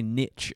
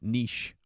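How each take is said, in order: First: It is said with an American pronunciation. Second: It is said with a British pronunciation.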